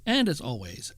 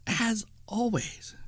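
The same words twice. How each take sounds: First: Said in the usual way. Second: Slow, breathy Halloween whisper; spooky whisper. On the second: Shown as a demonstration. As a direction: whisper it slowly to build suspense. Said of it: "Did I scare you?".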